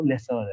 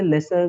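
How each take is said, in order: First: लेसोर said as "lesor", with a clear o before the final r; लेसोर ending in a rounded "sor"; correct pronunciation. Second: लेसर said as "lesar", ending in a short plain -ar; the common version लेसर, ending -sar; variant pronunciation. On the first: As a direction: give the proper form लेसोर, sounding the -sor. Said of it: "जो real pronunciation है वो लेसोर है". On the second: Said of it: "ये जैसे लेसर भी बोलते हैं". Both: Shown as a demonstration.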